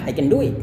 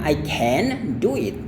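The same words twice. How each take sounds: First: The word can is short and weak. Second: The word can is full and clear. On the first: The speaker calls it right. "Cara Anda lafalkannya adalah I can do it" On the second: The speaker calls it wrong. "bukan I can do it, bukan kayak gitu ya"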